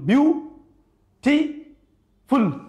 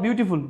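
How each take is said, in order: First: The word is split into three separate syllables. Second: The word is said without any breaks.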